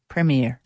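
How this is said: It is said with an American accent.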